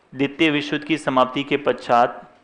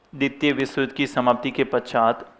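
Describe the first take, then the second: Both takes have the same delivery.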